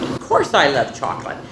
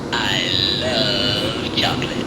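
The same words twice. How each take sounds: First: Said in the usual way. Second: Much lower, slow and drawn out; put-on deep voice. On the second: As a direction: drop into a slow, deep mock voice. Demonstrating her love of chocolate.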